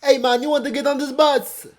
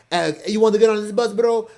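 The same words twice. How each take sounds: First: High, loud mock Jamaican accent; unpractised Jamaican accent, pitched way up; amateur Jamaican accent. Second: Higher, louder attempt at a Russian accent; a rough mock Russian accent; botched Russian accent. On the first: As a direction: call out like a tout in a badly faked Jamaican accent. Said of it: "how to do a Jamaican accent". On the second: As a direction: imitate a tout with a slip into Russian accent. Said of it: "you know, a Russian accent".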